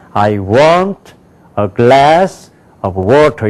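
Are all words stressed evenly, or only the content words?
content words. Content words are stressed; function words are nearly silent.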